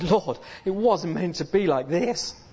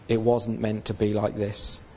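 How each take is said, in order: First: It is said in an excited, joyful tone. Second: It is said in a negative, downcast tone.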